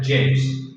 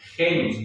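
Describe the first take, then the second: First: The g is pronounced the Italian way. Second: The g is pronounced the Spanish way. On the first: The speaker calls it right. "en latín se pronuncia genus" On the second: The speaker calls it wrong. "diríamos en español"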